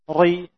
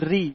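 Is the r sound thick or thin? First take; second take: thick; thin. First: The r is pronounced thick and heavy. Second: The r is pronounced thin and light. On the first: The speaker calls it wrong. "ri bukan" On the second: The speaker calls it right. "tapi ri"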